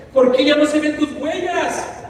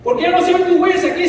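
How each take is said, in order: First: Slow, higher pleading question; man asking his Master why the footprints vanish, pleading. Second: Fast, much higher and louder repeat; man crying out to the Lord about the missing footprints, desperate. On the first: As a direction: ask it slowly, hurt. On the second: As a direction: fire the question again in anguish. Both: Retold or imitated. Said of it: "el hombre le dice".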